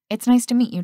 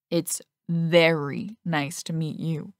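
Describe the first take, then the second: First: Said in the usual way. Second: "very" leaned on, slowed and lingering; stress on very. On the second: A narrator's reading. Teammate flirting with his friend's sister, stress on very. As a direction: draw out "very" suggestively. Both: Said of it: "He emphasized the word very".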